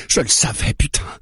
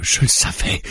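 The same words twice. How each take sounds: First: "je le savais" jumping up high, stressed on "le"; raised voice. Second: Breathy, held-back first "Je le savais"; muttered start. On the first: Mara realises he is one of them, raising her voice. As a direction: burst out on the repeat of "je le savais". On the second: Mara realises he is one of them, muttering. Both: A narrator's reading. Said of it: "dit-elle en haussant la voix".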